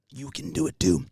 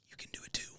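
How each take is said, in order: First: Said in the usual way. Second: Whisper. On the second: Acted. Repeated line, first whispered.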